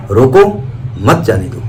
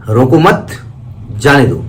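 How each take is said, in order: First: "रोको" by itself, pause, "मत जाने दो"; pause after रोको. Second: "रोको मत" as one unit, pause, "जाने दो"; pause after मत. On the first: Teacher repeating that two meanings come from the stop, pause after रोको. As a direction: break after a rising रोको, then drop low through मत जाने दो. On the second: Teacher repeating that two meanings come from the stop, pause after मत. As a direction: break after मत, letting जाने दो fall. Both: Shown as a demonstration. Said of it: "केवल कहाँ रुके हैं".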